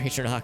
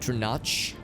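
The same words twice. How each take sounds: First: The final ch sound is plain and light. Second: The final ch sound is strong and pronounced. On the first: "I hope I'm pronouncing that right" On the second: "with a more pronounced C H sound"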